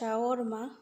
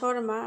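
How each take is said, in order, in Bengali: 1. শব্দটি একটু লম্বা করে বলা হয়, যেমন shawarma। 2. শব্দটি ছোট করে বলা হয়, যেমন sharma। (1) "আরবিতে বলে শাওরমা" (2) "আমরা ইংলিশ ও বাংলায় বলি শর্মা"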